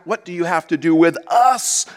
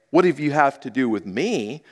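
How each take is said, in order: First: "us" lifted and leaned on at the end; stress on us. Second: Said in the usual way. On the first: Shown as a demonstration. Preacher showing the congregation the demon says "us". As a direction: make "us" the point of the line. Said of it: "But what have you have". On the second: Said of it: "doesn't say".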